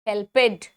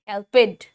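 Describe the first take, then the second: No difference in how they are said.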